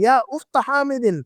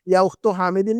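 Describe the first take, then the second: First: The word 'ukht' ends in an 'a' vowel. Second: The word 'ukht' ends in a 'u' vowel. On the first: The called noun is in the accusative case. The speaker calls it right. "मंसूब पढ़ते हैं" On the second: The called noun is in the nominative case. The speaker calls it wrong. "नहीं कहेंगे"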